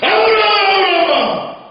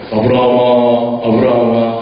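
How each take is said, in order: First: It is called out hurriedly and urgently. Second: It is called in a calm, smooth voice.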